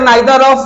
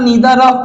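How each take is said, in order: First: The first vowel sounds like 'eye'. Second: The first vowel sounds like 'ee'. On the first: "British English" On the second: "American English"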